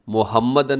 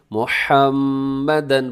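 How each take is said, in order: First: Quick मुहम्मदन with a plain h and short m; everyday, unstretched मुहम्मदन; careless wrong reading. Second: Slow मुहम्मदन with throaty h and long hummed m; tenderly drawn-out मुहम्मदन; loving correct reading. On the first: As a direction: say मुहम्मदन without holding the doubled m. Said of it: "मुहम्मदन नहीं बल्कि". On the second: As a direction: linger on the mm of मुहम्मदन with affection. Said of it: "बहुत प्यार से मोहब्बत के साथ". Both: Shown as a demonstration.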